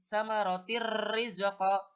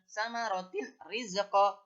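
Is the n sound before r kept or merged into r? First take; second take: merged; kept. First: The n sound merges into a doubled r. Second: The n sound is clearly kept before r. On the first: "Suara kasroh taimnya dihilangkan"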